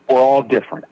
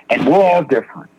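First: "all" leaned on, pitch kept level; stress on all. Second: "we're" pitched up and leaned on; stress on we're. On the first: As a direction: metti l'accento su "all", non su "we're". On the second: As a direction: dai peso a "we're", la frase scende dopo. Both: Shown as a demonstration.

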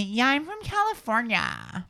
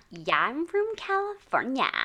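First: Slow, high California accent; West Coast accent. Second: Put-on slow, higher California accent; West Coast accent. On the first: Shown as a demonstration. Host models slow West Coast accent for [name]. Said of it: "West Coast". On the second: [name] skilfully copies the West Coast accent. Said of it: "Wow, she's really good".

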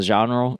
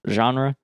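First: Said in the usual way. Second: Genre said with a nasal French ɑ̃ and rolled ending; French-style genre. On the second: Shown as a demonstration. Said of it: "like, satirical of the genre".

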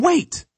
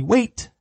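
First: "Wait" snapped out much higher, falling; a sharp, high "Wait" to stop a dog; sharp correction. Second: "Wait" said evenly, tune rising at the end; calm wait cue. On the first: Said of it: "you tell him". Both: Shown as a demonstration.

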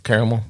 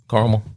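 First: Caramel said "CARE-uh-mel"; three-syllable caramel. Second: Caramel said "CAR-mel"; AH-vowel caramel. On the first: Host describing bourbon taste, caramel as "CARE-uh-mel". Offers both pronunciations of one word. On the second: Host correcting the bourbon word, caramel as "CAR-mel". Repeats word in other pronunciation. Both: Shown as a demonstration.

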